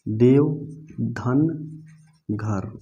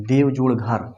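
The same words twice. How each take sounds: First: देव धन घर, split into parts, धन said for the plus sign; said the right way. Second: Slow देव जोड़ घर, saying जोड़ for the plus sign; the wrong way. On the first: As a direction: read देव धन घर as a sum, each part apart. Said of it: "इसको जोड़ मत बोलिएगा". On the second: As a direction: spell out देव जोड़ घर slowly, saying जोड़ aloud. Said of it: "ऐसे बोलेंगे ... उच्चारण ये गलत हो जाएगा". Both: Shown as a demonstration.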